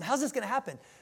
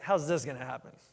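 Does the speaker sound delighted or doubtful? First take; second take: delighted; doubtful. First: It sounds delighted and full of wonder. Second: It sounds doubtful and disbelieving.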